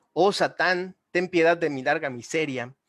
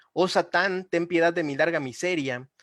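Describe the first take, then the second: Both takes have the same delivery.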